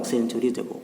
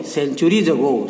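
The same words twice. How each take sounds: First: Said in the usual way. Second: Centuries ago stretched out slowly, centuries hit hardest; teacher demonstrating the stress on centuries ago. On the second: Shown as a demonstration. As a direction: drag out centuries ago with weight on centuries. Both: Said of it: "उसने एक शब्द पर जोर दिया ही".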